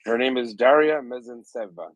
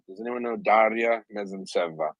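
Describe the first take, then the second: First: Put-on name said with a light Italian accent, pitched up. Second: Said in the usual way. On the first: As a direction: roll Daria Mezentseva out the Italian way. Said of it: "I said it with an Italian accent". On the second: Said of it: "I don't know why I said it".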